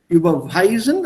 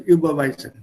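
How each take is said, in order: First: The stress falls on the third syllable. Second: No syllable is given special stress. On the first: "also W wird betont" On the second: "Das Verb ist neutral ausgedrückt. I will not stress the verb"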